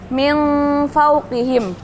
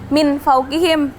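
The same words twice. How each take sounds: First: The n is blurred and nasal before the f. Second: The n is pronounced clearly before the f. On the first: The speaker calls it right. "cara bacanya samar" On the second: The speaker calls it wrong.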